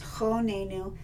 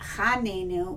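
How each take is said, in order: First: The first vowel is an 'o' sound. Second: The first vowel is an 'a' sound. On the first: The speaker calls it right. "requires it to be pronounced o" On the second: The speaker calls it wrong. "which many people pronounce incorrectly"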